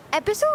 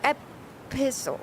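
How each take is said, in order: First: Epistle as a quick, run-together EP-i-sul; first pronunciation of epistle. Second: Epistle split as ep-PISS-ul. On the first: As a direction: say Epistle lightly, without dwelling on the piss. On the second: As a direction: lean on the piss in epistle after a tiny break. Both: Shown as a demonstration. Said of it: "do you say it with the piss in it".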